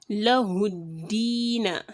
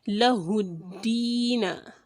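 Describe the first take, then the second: The two takes are said the same way.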